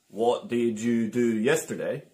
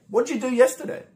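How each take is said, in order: First: It is said slowly, each word separate. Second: It is said quickly, words run together.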